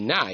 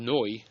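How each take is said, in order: First: The vowel is a short, flat a. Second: The vowel is a rounded oh. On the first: "It sounds like a patach" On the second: "but not oh"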